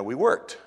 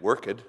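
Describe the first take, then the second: First: Said in the usual way. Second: "worked" said as work-ed, two syllables. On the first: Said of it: "we don't go". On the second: Shown as a demonstration. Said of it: "We didn't".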